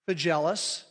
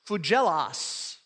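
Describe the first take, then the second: First: The name is pronounced with English sounds. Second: The name is pronounced with Greek sounds. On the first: "if you look at the Englishized version of it" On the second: "if you look at Greek, the first name is pronounced"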